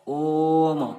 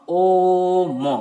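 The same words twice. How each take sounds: First: Said in the usual way. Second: ओ मो with the vowels held very long and called out loud; drawn-out pluta vowel. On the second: Shown as a demonstration. Teacher showing students a pluta vowel, ओ मो held very long. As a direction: stretch ओ मो far beyond normal length, as if calling from afar. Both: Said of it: "हमें long time लगा".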